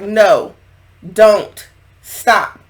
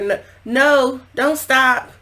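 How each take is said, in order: First: It is broken up, as a firm refusal. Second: It is moaned with pleasure, as sound effects.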